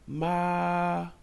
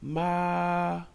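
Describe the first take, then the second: First: The pitch stays high and level. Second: The pitch stays high and level.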